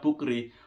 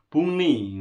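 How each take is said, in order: First: The middle sounds like 'k' followed by 'r'. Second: The middle sounds like a nasal 'n'. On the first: The speaker calls it wrong. "bukri itu bukan dibaca bukri" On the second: The speaker calls it right. "buni ngono"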